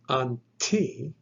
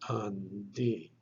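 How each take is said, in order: First: The middle consonant is a voiceless T sound. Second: The middle consonant is a voiced D sound. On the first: The speaker calls it wrong. "You would not pronounce it unti" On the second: The speaker calls it right. "The tav actually gets softened or vocalized, and it is pronounced then undi"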